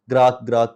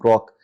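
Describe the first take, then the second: First: The vowel is an open 'ah' sound. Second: The vowel is a rounded 'o' sound. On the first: The speaker calls it wrong. "ग्राक ग्राक करके वो pronounce कर रहे थे" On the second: The speaker calls it right. "How he was pronouncing ग्रॉक"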